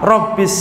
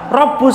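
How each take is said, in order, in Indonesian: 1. Kata ini dibaca dengan vokal i. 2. Kata ini dibaca dengan vokal u. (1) "Baknya harokatnya apa? Kasroh" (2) "Riwayat Nafi apa? Dibaca Rabbus sama"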